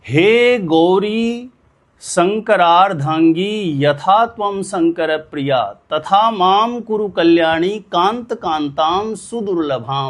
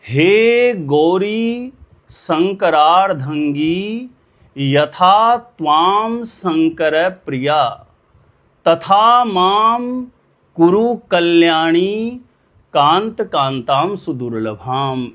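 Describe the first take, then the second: First: The mantra is recited at a faster pace. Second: The mantra is recited at a slower pace.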